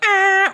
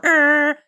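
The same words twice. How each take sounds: First: High, loud held horn blare; high train horn. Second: Steady held honk, the lower note; low train horn. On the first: Showing the train horn's high setting, high held honk. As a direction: imitate a horn on its high note. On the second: Showing the train horn's low setting, lower held honk. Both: Retold or imitated. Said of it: "you can go high or low".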